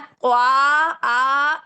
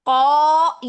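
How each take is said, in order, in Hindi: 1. लंबा स्वर बारीक और खुला है, जैसे 'aa'। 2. लंबा स्वर मोटा और गोल है, जैसे 'aw'। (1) "ये गलत है। ये अलिफ बारीक हो गया।" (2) "ये अलिफ भी मोटा हो गया"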